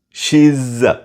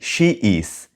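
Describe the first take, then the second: First: The words merge into one contracted syllable. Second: Both words are said fully and separately. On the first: The speaker calls it right. "Say she's" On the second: The speaker calls it wrong. "Don't say she is"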